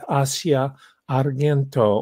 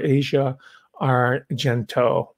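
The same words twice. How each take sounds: First: The name is said with an Italian pronunciation. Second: The name is said with an American pronunciation.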